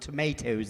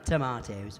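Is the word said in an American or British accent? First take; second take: American; British. First: It is said with an American pronunciation. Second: It is said with a British pronunciation. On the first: The speaker calls it wrong. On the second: The speaker calls it right.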